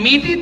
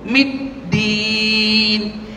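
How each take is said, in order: First: The d sound is short and single. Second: The d sound is held and doubled. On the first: The speaker calls it wrong. "tak boleh" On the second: The speaker calls it right. "Dal tu sabdu"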